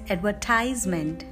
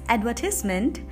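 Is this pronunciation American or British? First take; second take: American; British. First: It is said with an American English pronunciation. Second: It is said with a British English pronunciation. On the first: "in American English, we pronounce it as" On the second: "in British English, we pronounce it as"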